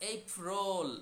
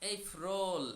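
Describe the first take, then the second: The two takes are said the same way.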